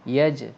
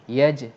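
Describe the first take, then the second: No difference in how they are said.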